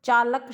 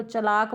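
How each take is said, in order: First: चालक with long aa in the first syllable; long first vowel, short second in चालक; standard चालक. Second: चलाक with a short first vowel; shifted चलाक. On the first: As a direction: say चालक as "chaa-lak". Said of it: "मात्रा का ध्यान ही नहीं देते". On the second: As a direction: say चलाक as "cha-laak". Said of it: "चलाक बोल देते हैं". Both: Shown as a demonstration.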